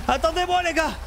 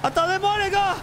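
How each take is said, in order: Both takes have the same delivery.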